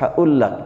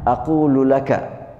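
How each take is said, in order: First: It is the contracted Egyptian form without a g. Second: It is the full classical Arabic form.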